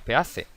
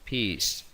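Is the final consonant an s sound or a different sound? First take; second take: different sound; s sound. First: The final c is not said as s. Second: The final c is said as s. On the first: The speaker calls it wrong. "No decimos peace" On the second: The speaker calls it right. "esa C se pronuncia como una S"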